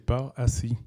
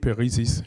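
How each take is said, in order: First: The name ends with the vowels of 'assis'. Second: The name ends with the vowels of 'Isis'. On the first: The speaker calls it right. "la vraie prononciation, c'est par assis" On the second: The speaker calls it wrong. "ça peut donner Père Isis"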